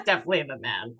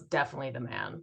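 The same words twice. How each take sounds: First: Joking about past-life man, low and quick; mock manly low. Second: Lower, quicker voice; playful deep man voice; mock manly low. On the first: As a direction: say it again with swagger. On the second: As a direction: drop into a mock masculine register.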